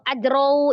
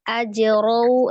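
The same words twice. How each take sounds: First: The word is rushed through too quickly. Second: The word is said lightly and evenly. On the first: The speaker calls it wrong. "terlalu cepat" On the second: The speaker calls it right. "ringan, ringan aja"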